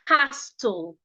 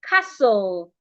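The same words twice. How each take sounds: First: A T sound is heard in the middle. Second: No T sound is heard in the middle. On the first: The speaker calls it wrong. "not castle" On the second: The speaker calls it right. "We have castle"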